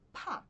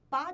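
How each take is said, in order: First: The p is released with a strong puff of air. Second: The p is plain, without a puff of air. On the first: The speaker calls it right. "o P cuspido para fora da sua boca" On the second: The speaker calls it wrong. "não é pá de pato"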